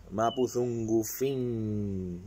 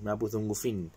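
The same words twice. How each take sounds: First: "mapuzungufin" stretched out slowly, syllable by syllable; slow demo. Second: Said in the usual way. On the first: Shown as a demonstration. Teacher models "mapuzungufin" for viewers, very slow. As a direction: draw out "mapuzungufin" for learners to copy. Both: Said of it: "Yo lo hablo".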